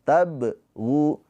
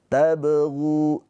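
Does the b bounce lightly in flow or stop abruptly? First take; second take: stopped; flowing. First: The b is cut off with a brief stop. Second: The b bounces lightly and flows straight on. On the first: The speaker calls it wrong. "Jangan sempat berhenti seperti qalqalah kubro, jangan tabghu" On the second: The speaker calls it right. "dipantulkan dengan mengalir"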